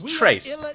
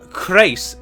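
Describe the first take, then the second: First: The word begins without a hard K sound. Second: The word begins with a hard K sound. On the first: The speaker calls it right. "which is how I would also pronounce it" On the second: The speaker calls it wrong. "a hard C H at the start of the word is very rare"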